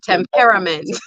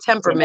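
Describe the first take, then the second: First: It is said with a Caribbean accent. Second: It is said with an American accent.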